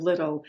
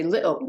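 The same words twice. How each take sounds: First: Said in the usual way. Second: "little" with a glottal stop for the T. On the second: Shown as a demonstration. Explaining Scottish sounds to the host, "little" with glottal T. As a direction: swallow the T in "little" back in the throat. Where you say little instead of little.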